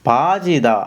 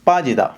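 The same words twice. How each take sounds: First: The first consonant is soft and lax. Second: The first consonant is tense and forceful. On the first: The speaker calls it wrong. "இந்த பாஜிதா அப்படின்னு சொல்லி வாசிச்சீங்கன்னு சொன்னா, அது பிழை" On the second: The speaker calls it right. "ஒரு சின்ன ஸ்ட்ரெங்த் ஒண்ணு நீங்க குடுக்கணும்"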